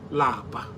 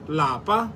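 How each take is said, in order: First: The word is said with a low tone. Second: The word is said with a high tone. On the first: It means to be tired. "Lower tone" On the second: It means home. "In higher tone"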